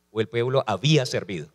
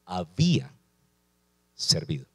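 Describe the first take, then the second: First: Said in the usual way. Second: "había" dropped low and falling, then a pause before "servido"; stress on había. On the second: Shown as a demonstration. Preacher stressing "había servido" to the church, low and deliberate. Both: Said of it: "Quiero enfatizar esta palabra".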